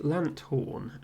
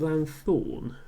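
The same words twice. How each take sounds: First: It is said lant-horn, with separate t and h. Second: It is said lan-thorn, with a th sound. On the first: "as in a portmanteau of lantern and horn" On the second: "as if it's lantern and thorn"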